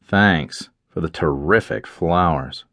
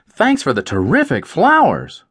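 First: The voice sounds angry and mocking. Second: The voice sounds warm and truly grateful. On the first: The writer is not pleased with the flowers. "you could still hear this same sentence with an angry tone" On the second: The writer is truly grateful for the flowers. "Does the writer mean"

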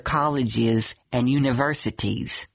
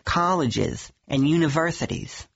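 First: The s sounds are clear and hissing. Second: The s sounds are lisped like th. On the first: The speaker calls it right. "a nice clear S" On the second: The speaker calls it wrong. "You're giving me a th sound"

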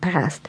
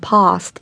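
First: The vowel is flat, as in cat. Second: The vowel is broad and open, as in father.

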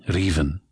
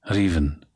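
No difference in how they are said.

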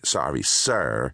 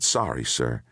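First: It is said in a snotty tone. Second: It is said quietly and sincerely.

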